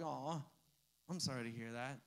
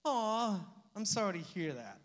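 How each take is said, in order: First: A much softer, lower "Aw, I'm sorry to hear that"; hushed mock sympathy. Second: A quick, lightly voiced "Aw" of sympathy; mock sympathy. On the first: Pastor mocking careless sympathy, much softer and lower. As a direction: let it sink into a soft, lower, hollow sigh of pity. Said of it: "you're like". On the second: Pastor mocking empty sympathy, lightly voiced. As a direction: brush it off with a polite "Aw, I'm sorry". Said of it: "sympathy is saying". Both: Shown as a demonstration.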